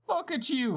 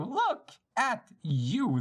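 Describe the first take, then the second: First: High, gloating taunt; mocking villain. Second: Drawn-out, very slow gloating taunt; slow mocking villain. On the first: Villain to captured girl, high gloating taunt. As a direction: jeer at her like a smug villain. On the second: Villain to captured girl, slow drawn-out taunt. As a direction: savor every word of the jeer.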